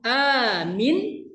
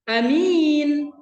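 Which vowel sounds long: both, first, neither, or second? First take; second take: first; second. First: The first vowel is long, the second short. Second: The first vowel is short, the second long. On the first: Make it safe. "A-nya panjang, minnya pendek" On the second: A trustworthy person. "A-nya pendek, minnya panjang"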